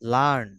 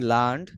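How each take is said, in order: First: The word ends with a plain n sound. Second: The word ends with an added d sound. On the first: The speaker calls it right. "লার্ন হ্যাঁ" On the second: The speaker calls it wrong. "লার্নড না it won't be লার্নড"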